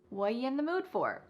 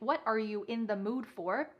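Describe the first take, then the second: First: The opening words are squeezed almost into nothing. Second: Every word is said fully and clearly. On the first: "Or we could reduce this even further. ... This is extremely reduced" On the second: "instead of saying"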